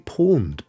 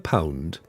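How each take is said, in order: First: The vowel sounds like the one in 'pawn'. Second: The vowel sounds like the one in 'pound'. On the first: "I say pawned" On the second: "I think I prefer pound"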